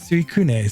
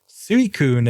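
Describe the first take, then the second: First: It is said the way Japanese pronounces it. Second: It is said the common English-speaking way. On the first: This matches how the name is said in Japanese. "You pronounce it Suicune" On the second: This is how most people say the name. "as people call it, is not how you would pronounce that in Japanese"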